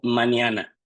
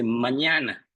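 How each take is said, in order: First: The middle consonant is a plain n. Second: The middle consonant is a palatal ñ. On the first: "hay ciertas pronunciaciones que van a ser como mañana" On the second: "ya no se dice mañana"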